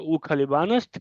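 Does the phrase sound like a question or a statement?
question. It is said with questioning intonation. Is he a pilot? "क्या वो पायलट है"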